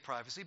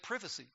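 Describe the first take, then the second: First: It is said the American way. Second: It is said the British way. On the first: "we say privacy" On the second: "but the Britons say privacy"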